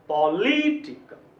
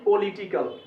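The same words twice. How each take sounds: First: The voice pauses briefly after the first syllable. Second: The voice runs straight on after the first syllable. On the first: The speaker calls it right. "पौ के पास भी रुकना चाहिए" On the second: The speaker calls it wrong. "ना कि political"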